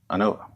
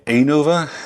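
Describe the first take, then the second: First: Its opening sounds like the start of 'analysis'. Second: Its opening does not sound like 'analysis'. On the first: The speaker calls it right. "You don't say analysis, it's analysis. So it's ANOVA" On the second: The speaker calls it wrong. "whenever people say ANOVA, it sort of bugs me"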